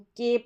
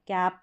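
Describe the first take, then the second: First: The vowel is a closer e sound. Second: The vowel is an open ae sound. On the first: The speaker calls it wrong. "इसको केप नहीं पढ़ते हैं" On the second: The speaker calls it right. "कैप पढ़ते हैं"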